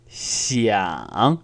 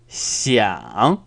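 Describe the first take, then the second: No difference in how they are said.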